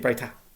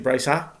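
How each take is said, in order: First: The middle consonant is a t sound. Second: The middle consonant is an s sound. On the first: "sometimes I say Braita" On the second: "sometimes I say Braisa"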